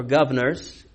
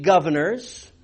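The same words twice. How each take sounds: First: Tentative Australian "governors", dropping the first r; attempted Australian accent. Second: Said in the usual way. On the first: Shown as a demonstration. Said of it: "We were just doing that accent".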